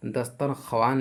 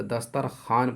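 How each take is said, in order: First: दस्तरख्वान ending in kha-waan; as written. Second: दस्तरखान ending in khaan; silent waw. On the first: Teacher quotes the spelling, दस्तरख्वान as dastar-kha-waan. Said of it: "लिखते हैं". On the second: Teacher gives the correct reading, दस्तरखान as dastar-khaan. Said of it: "पढ़ेंगे". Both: Shown as a demonstration.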